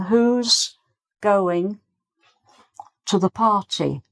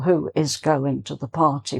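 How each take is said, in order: First: Who is is contracted into one syllable. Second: Who and is are said as two words. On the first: The speaker calls it right. "you can ask the question" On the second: The speaker calls it wrong. "you wouldn't say it in full"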